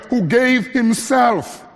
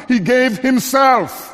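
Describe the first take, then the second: First: "gave" leaned on slowly and firmly; stress on gave. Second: "himself" stressed, slow and firm. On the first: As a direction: press down on "gave", let "himself" fall. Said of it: "place the emphasis not on the verb gave". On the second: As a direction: land the weight on "himself". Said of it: "but on the fact that he gave himself". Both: Shown as a demonstration.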